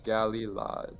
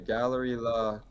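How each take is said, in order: First: The first part sounds like the word galley. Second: The first part sounds like the word gallery. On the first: The speaker calls it right. "It's Galila" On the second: The speaker calls it wrong. "Oh, I said gallery"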